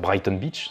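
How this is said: The name is pronounced with French sounds.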